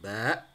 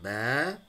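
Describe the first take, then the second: First: The word ends with a glottal stop. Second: The word ends on an open vowel. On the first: The speaker calls it right. "ada hamzah di belakangnya" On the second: The speaker calls it wrong. "bukan ba"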